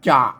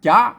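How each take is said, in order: First: The syllable is said with a low tone. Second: The syllable is said with a rising tone. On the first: "มันเสียงเอก" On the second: "มันเสียงจัตวา"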